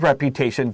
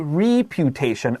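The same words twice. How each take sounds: First: The first vowel is a short E sound. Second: The first vowel is a long E sound. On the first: The speaker calls it right. "I wrote short E above my reputation there" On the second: The speaker calls it wrong. "Don't say reputation"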